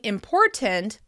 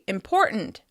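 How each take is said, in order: First: The t is pronounced as a full t. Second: The t is replaced by a glottal stop. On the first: "Instead of saying important" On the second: "we often say important"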